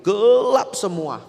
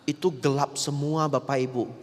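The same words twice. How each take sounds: First: "Gelap semua" said higher, louder and slowly drawn out; stress on gelap semua. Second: Said in the usual way. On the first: Shown as a demonstration. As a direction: lean hard on "Gelap semua" to paint the darkness. Mengulang "gelap semua" dengan tekanan. ("Gelap semua" ditekan, lebih tinggi, keras dan pelan)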